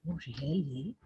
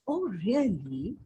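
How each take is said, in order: First: The voice sounds heavy with grief. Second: The voice sounds warm and intimate. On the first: The speaker is overburdened with grief. "You are overburdened with grief" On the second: The speaker is growing close to the listener. "You are becoming close, intimate to the person"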